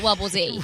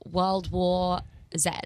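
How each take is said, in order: First: The letter Z is said the American way. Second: The letter Z is said the British way. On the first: This is how the other person would say it. "But you would call it" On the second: This is how the speaker herself says it. "I did read the entirety of the book"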